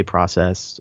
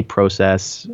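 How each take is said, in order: First: "process" with a short ah; Canadian "process". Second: "process" with a long oh; American "process". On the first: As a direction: say "process" as "prah-sess". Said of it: "you say process". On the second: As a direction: say "process" as "proh-sess". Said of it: "We say process". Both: Shown as a demonstration.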